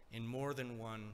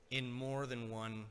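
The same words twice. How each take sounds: The two takes are said the same way.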